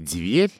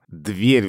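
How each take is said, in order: First: The first consonant is soft, Old Moscow style. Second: The first consonant is hard, modern style.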